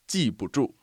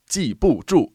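First: The middle syllable is light and neutral-toned. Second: The middle syllable carries a full tone. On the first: The speaker calls it right. "So the 不 is a fifth tone" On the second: The speaker calls it wrong. "So it's not 记不住"

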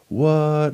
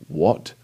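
First: The word sounds light and playful. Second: The word sounds sharp and demanding. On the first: The speaker finds something funny. "like with the first tone, I'm just kind of like... I'm being jovial about it" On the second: The speaker wants an answer from someone. "then that's kind of like I'm demanding an answer from someone"

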